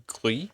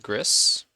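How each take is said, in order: First: Gris said the French way, silent final s. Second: Gris said English-style, with the final s sounded; anglicized Gris. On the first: Streamer offering viewers the proper name, French Gris. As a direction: say Gris as "gree", rising at the end. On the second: Streamer naming the game to viewers, anglicized Gris. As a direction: say Gris to rhyme with hiss. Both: Shown as a demonstration. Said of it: "if you're French, which is how".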